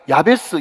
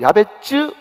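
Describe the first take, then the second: First: The last syllable begins with a plain s sound. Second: The last syllable begins with a ts sound. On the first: This is the usual local form of the name. "이 야베스라고 하는 것이" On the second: This is closer to the original form of the name. "오리지널 발음으로 야베츠, 그게 가깝습니다"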